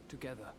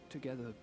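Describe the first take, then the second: The two takes are said the same way.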